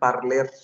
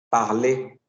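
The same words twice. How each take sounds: First: The ending is pronounced with an audible r. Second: The ending is pronounced as an e sound. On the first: The speaker calls it wrong. "No digan parler" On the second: The speaker calls it right. "Esta er suena como una letra e"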